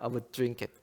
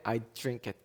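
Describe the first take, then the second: First: 'I would' is said as two full words. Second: 'I would' is contracted into 'I'd'.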